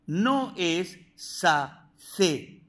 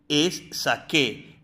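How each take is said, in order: First: "sacé" said very slowly with a th sound for c; wrong form sacé. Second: "saqué" with a hard k sound, slow and clear; correct saqué. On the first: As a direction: stretch the wrong "sacé" to warn them. (forma incorrecta "sacé", muy lenta) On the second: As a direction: say "saqué" carefully with k. (forma correcta "saqué" con k) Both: Shown as a demonstration.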